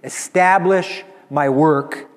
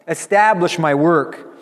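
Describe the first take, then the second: First: It is said in a confident, triumphant voice. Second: It is said in a joyful, happy voice. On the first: "with the complete confidence of victory" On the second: "And he says it with joy"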